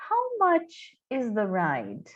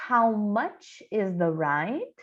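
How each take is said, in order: First: Slow, even repeat of the question; slow repeat for the class. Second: Slow, clear English model; slow careful model line; slow teaching demo. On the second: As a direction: say it slowly for students to copy. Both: Shown as a demonstration. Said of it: "bastante importante a gente saber".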